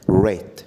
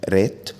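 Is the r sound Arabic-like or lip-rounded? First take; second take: lip-rounded; Arabic-like. First: The r is said with slightly rounded lips. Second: The r is a tapped, Arabic-style r. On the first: The speaker calls it right. "قول عليها رات" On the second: The speaker calls it wrong. "ما تقولش عليها رات"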